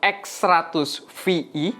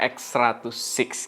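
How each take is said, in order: First: The VI is spoken as two separate letters. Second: The VI is spoken as the number six. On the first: The speaker calls it wrong. "di awal gue agak salah" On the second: The speaker calls it right. "bacanya yang bener"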